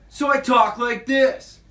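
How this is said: A bratty, obnoxious twelve-year-old boy's voice.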